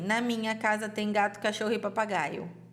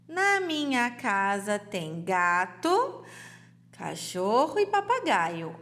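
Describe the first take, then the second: First: There is no pause after gato. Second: There is a pause after gato.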